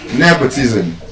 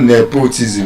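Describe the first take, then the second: First: The stress is on the first syllable. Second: The stress is not on the first syllable. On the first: The speaker calls it right. "those words are stressed on the first syllable" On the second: The speaker calls it wrong. "It's not"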